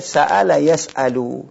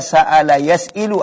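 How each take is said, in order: First: The vowel after the hamza is a. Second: The vowel after the hamza is i. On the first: The speaker calls it right. "Ini mesti dibaca" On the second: The speaker calls it wrong. "Enggak bisa dibaca"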